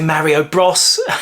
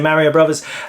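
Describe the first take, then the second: First: The last word is the short form 'bros'. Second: The last word is the full form 'brothers'. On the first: The speaker calls it wrong. "some people say Mario Bros" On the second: The speaker calls it right. "I always say Mario Brothers"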